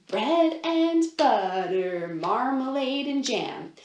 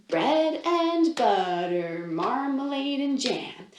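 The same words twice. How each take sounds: The two takes are said the same way.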